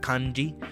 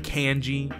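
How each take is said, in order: First: It is said with a Japanese-style pronunciation. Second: It is said with an English-style pronunciation. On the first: The speaker calls it right. "saying it as you would in Japanese, like kanji" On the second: The speaker calls it wrong. "You don't say kanji"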